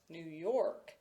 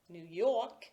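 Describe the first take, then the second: First: The R after the vowel in York is pronounced. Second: The R after the vowel in York is dropped. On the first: It signals a middle-class speaker. "Using it" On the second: It signals a working-class speaker. "not using it"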